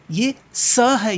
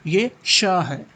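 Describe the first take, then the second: First: "स" said as a slow, drawn-out dental s hiss, higher and louder; slow drawn-out "स" with a sharp dental hiss. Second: "श" said as a slow, drawn-out sh with the tongue back, as in shalgam; palatal sh. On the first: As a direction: stretch out "स" as a hissing s from the teeth. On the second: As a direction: stretch out "श" as a hushing sh. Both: Shown as a demonstration. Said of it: "स और श में अंतर है".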